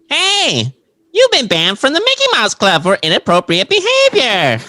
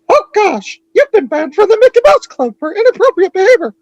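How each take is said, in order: First: It is said in a SpongeBob voice. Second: It is said in a Mickey Mouse voice.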